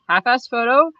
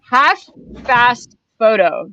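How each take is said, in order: First: The words are said fast and run together. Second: The words are said slowly and kept apart. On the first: It sounds like careless work. "So if you say it fast, it sounds like half-assed" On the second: It is a business name. "she calls it ha half fast photo"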